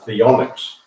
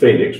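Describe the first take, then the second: First: The name begins with a TH sound. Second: The name begins with an F sound. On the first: The speaker calls it right. "the correct pronunciation is actually" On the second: The speaker calls it wrong. "that's what everybody says"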